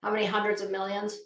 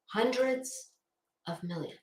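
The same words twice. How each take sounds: First: Said in the usual way. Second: "Hundreds" set apart, "of millions" dropped soft; slow pointed repeat. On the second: Shown as a demonstration. Letting the number sink in for viewers, slow and pointed. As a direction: pause after "Hundreds", then let "of millions" fall quietly. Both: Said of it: "I'll just let that ruminate".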